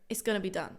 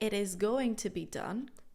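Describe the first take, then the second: First: "It is" is contracted into one syllable. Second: "It is" is said as two full words. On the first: The speaker calls it right. "but rather" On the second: The speaker calls it wrong. "I would never say"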